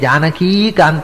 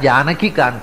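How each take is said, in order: First: The last vowel of Janaki is held long. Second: The last vowel of Janaki is kept short. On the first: The speaker calls it wrong. "ಜಾನಕೀ ಕಾಂತ ಅಲ್ಲ" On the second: The speaker calls it right. "ಹರಸ್ವಾಗಿ ಪ್ರಯೋಗ ಮಾಡೋದಕ್ಕೂ; ದೀರ್ಘ ಇಲ್ಲ ಅಲ್ಲಿ"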